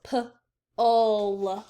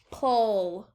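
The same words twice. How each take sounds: First: "P-ul" very slow, split into p and ul; segmented sounds. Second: Said in the usual way. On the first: Shown as a demonstration. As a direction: drag the syllable apart slowly.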